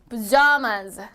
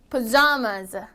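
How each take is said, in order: The two takes are said the same way.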